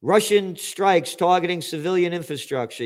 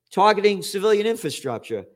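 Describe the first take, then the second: First: Said in the usual way. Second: Mocking repeat of a hypocritical claim; scornful echo. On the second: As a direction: repeat the phrase with disbelief, a little higher and louder. Scornfully echoing the headline phrase.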